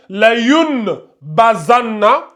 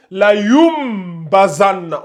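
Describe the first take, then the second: First: "la yun bazanna" slow, n kept in "yun"; reading without qalb. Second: "la yum bazanna" slow, n turned into a held m; qalb rule applied. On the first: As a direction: sound a clear n before "bazanna". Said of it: "au lieu de lire". (« la yun bazanna » lentement, avec un n net) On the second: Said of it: "on lit". (« la yum bazanna » avec un m tenu) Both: Shown as a demonstration.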